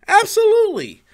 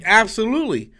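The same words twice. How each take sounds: First: Much higher, emphatic Absolutely; excited emphasis. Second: Said in the usual way. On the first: Real, not acted. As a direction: leap up high on Absolutely. Repeating answer emphatically.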